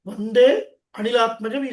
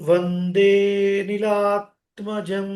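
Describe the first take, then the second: First: The two words are said separately, with full a. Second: The words are joined, with the preceding vowel lengthened. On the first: "అది విడదీస్తే వందే అనిలాత్మజం is fine" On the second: "దాని ముందున్న అక్షరాన్ని కొద్దిగా లాగ్ చేయాలి"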